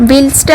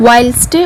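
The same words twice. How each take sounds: First: "Whilst" said with a short i, like wilst; "Whilst" as wilst, short vowel; mispronounced whilst. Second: "Whilst" with a long ai vowel, rhyming with while; "Whilst" pronounced like while plus st; corrected whilst. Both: Shown as a demonstration. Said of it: "Whilst അല്ല ട്ടോ".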